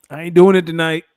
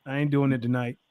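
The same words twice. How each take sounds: First: Louder, punched-up "doing it tonight"; insistent, raised-voice "I ain't doing it"; emphatic refusal. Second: Said in the usual way. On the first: Real, not acted. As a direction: put your foot down on "doing".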